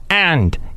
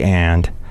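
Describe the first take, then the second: First: The word is said with a hard, biting attack. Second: The word is said softly, without a sharp bite. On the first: "It's like a hard bite" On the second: "They don't say and"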